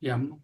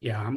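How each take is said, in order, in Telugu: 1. ఈ అక్షరాన్ని హ్రస్వ అచ్చుతో పలుకుతారు. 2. ఈ అక్షరాన్ని దీర్ఘ అచ్చుతో పలుకుతారు. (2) "యాం గాదు"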